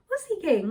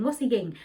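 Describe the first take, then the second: First: Sudden high, louder curious question; startled curious question. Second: Said in the usual way. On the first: Retold or imitated. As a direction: jump up in pitch, surprised. Sees his hand behind back.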